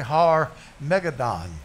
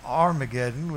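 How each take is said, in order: First: The name is said as Har Megiddon. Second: The name is said as Armageddon. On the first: This is the original form, meaning the mountain of Megiddo. The speaker calls it right. "The pronunciation is really Har Megiddon" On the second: This is the usual English form of the name. The speaker calls it wrong. "That's what we say in the English"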